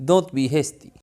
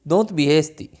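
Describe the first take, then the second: Both takes have the same delivery.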